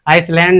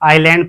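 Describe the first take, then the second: First: The s sound is pronounced. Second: The s sound is silent. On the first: The speaker calls it wrong. "इसे हम आइसलैंड नहीं पढ़ते" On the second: The speaker calls it right. "इसे हम आइलैंड पढ़ते हैं"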